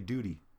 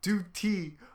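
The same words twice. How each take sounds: First: The middle t is soft, like a quick d. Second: The middle t is crisp and carefully pronounced. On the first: "You're just mad because I say duty" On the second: "When have you ever pronounced words to the exact like that?"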